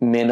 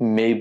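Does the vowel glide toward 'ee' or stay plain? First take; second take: plain; glide. First: The vowel is a plain, steady 'e' sound. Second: The vowel glides from 'e' toward 'ee'. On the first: The speaker calls it wrong. "না বলে" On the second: The speaker calls it right. "বলতে হয়"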